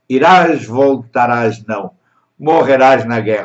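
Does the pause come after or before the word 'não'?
after. The pause comes right after não, not before. You will die in the war. "uma pequena vírgulazinha"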